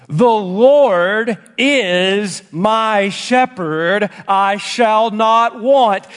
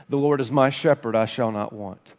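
First: "LORD" and "IS" stretched out slowly, deliberate; slow, weighty recitation. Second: Low, soft and quicker run through the verse; quick, low recitation. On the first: Preacher reads the psalm's first verse to the congregation, slow and weighty. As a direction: recite the verse very slowly, drawing out each word. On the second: Preacher repeats the familiar verse before unpacking it, quick and low. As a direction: say it quietly and low, without stretching the words. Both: Real, not acted.

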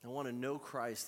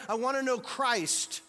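First: Said in the usual way. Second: Loud high preaching, slow and drawn out; full-force preaching. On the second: Acted. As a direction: proclaim it to the back row. Preached take of Paul's words.

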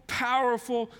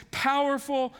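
No difference in how they are said.

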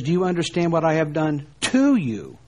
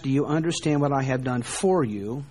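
First: "to" stressed with a firm falling close; the correct reading, weight on "to". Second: "for" stressed, voice rising on "for you"; the wrong reading, "for" pushed up. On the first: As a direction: land hard on "to you" and drop. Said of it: "Rather, he says". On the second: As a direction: lean on the word "for" and lift the end. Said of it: "He doesn't ask". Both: Shown as a demonstration.

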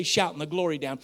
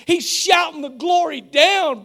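First: Said in the usual way. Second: High, drawn-out preacher's shout; loud shouted praise. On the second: Acted. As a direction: shout it out slowly like jubilant praise. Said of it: "A loud voice".

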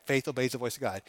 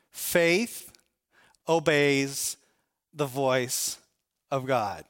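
First: Said in the usual way. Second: Faith, obeys, the voice, of God, each said slowly with pauses between; slow emphatic statement. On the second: Shown as a demonstration. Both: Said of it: "Make sure you understand this".

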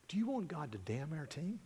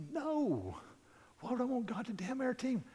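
First: Soft, measured question; quiet pointed question. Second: High-pitched, incredulous protest; startled objection. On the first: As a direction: ask it softly, as a private word. Coach quietly questions the swearing man. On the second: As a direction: object in a much higher, baffled voice. Swearing man's startled, indignant reply. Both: Retold or imitated.

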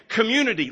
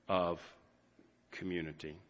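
First: Community, called out high and loud as a headline; emphatic community. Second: Community. said very soft and low, trailing away; hushed community. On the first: Pastor proclaiming Paul's first lesson, high and loud. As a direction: punch community, loudly. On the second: Pastor softly closing a thought, hushed. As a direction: let community. fall to a near hush. Tender close of a sentence. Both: Real, not acted.

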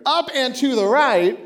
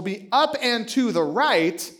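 First: Up and to the right punched louder, UP stressed with a falling tune; emphatic and louder. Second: Be up and to the right drawn out slowly, each word spaced; slow, deliberate upward image. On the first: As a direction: hit up and to the right hard as if pointing. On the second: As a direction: stretch up and to the right like tracing a rising line. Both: Shown as a demonstration. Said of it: "I guess that's this way for you".

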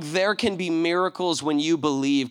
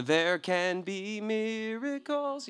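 First: Said in the usual way. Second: Softly sung, long drawn-out notes; singing. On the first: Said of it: "and the song". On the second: Shown as a demonstration. Reminding listeners of the Prince of Egypt song, singing. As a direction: sing the movie tune gently and slowly. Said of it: "Do you know the song".

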